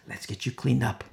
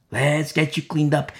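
First: "Let's get you cleaned up" said softly; soft, understated reassurance; gentle offer. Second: Said in the usual way. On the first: Retold or imitated. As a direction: offer help quietly. First take of gentle offer.

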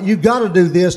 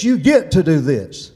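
First: Obligation read as a burden, stress on gotta; "You gotta do this." with weight on gotta, as a burdensome duty; wrong version. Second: "You get to do this." with GET punched and falling; stress on GET. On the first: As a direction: say it as a heavy must. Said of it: "Not, this is not". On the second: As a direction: hit the word get as a privilege. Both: Shown as a demonstration.

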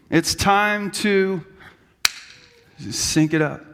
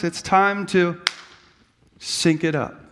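First: It's time to sync it up, drawn out slowly; slow take two. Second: Said in the usual way. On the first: Shown as a demonstration. Pastor redoing the line as a take two, slowly. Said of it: "they do take two". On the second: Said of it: "as Bob Goff says".

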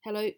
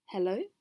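First: Short, curt hello. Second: Tentative hello, rising at the end; questioning hello. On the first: A narrator's reading. The voice under the bridge answering Mrs Gruff, curt. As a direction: return the greeting tersely, without a questioning rise. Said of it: "said the voice curtly". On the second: Acted. Mrs Gruff greeting the unseen voice, questioning. Hesitant greeting awaiting a response.

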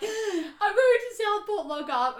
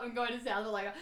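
First: High, loud, slow sobbing wail; retold crying. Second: Said in the usual way. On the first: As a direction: wail it like a panicked, crying girl. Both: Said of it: "I am crying my eyes out".

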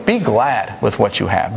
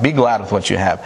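First: Slow, each word weighed; slow emphatic point. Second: Said in the usual way. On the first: Shown as a demonstration. Preacher to congregation, stating last point slowly. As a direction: lay out the point slowly and deliberately. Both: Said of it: "here's the last one".

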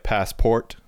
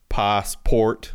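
First: "passport" with a flat American A; American "passport", short A as in "cat"; proper American pronunciation. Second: "passport" with the Australian A left on; Australian's attempted American accent. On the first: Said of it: "so it'll be, like". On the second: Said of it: "they can't turn the A off". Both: Shown as a demonstration.

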